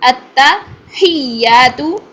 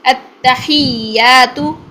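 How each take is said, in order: The two takes are said the same way.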